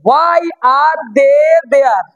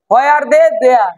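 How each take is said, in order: First: Very slow, word by word; teacher's drawn-out model sentence; slow breakdown. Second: Said in the usual way. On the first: Shown as a demonstration. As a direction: stretch out each word for learners. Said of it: "আগে ছোট করে বুঝে নাও". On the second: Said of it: "পরে ওটাকে তাড়াতাড়ি বলো".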